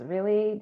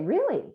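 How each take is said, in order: First: It sounds weary and annoyed. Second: It sounds interested and curious. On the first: The listener is tired of the topic. "do we have to talk about this again?" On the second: The listener wants to hear more. "which is more curious and, hey, tell me more"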